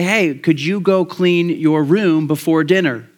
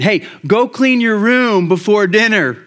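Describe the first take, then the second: First: It is said in a gentle, friendly tone. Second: It is said in a firm, commanding tone.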